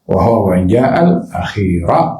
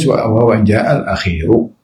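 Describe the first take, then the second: First: The word akhir ends with an 'a' vowel. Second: The word akhir ends with a 'u' vowel. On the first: The speaker calls it right. "yang betul baris atas" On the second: The speaker calls it wrong. "banyak tertulis wa huwa in ja'al akhiru dengan baris depan dhammah"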